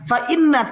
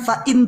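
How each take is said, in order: First: The word ends with a doubled n and vowel. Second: The word ends abruptly on a single n. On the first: The speaker calls it right. "Fa'inna tilkat toroik" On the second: The speaker calls it wrong. "bukan fa'in tilka"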